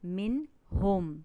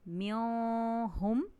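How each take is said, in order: First: The n sound is pronounced clearly and fully. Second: The n sound is hidden in a nasal hum. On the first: The speaker calls it right. "इसको ज़ाहिर करके पढ़ा है" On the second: The speaker calls it wrong. "इसको मैंने म्यों हुम नहीं पढ़ा"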